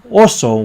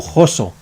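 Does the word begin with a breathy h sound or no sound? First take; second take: no sound; breathy h. First: The word starts with a vowel, no h sound. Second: The word starts with a breathy h sound.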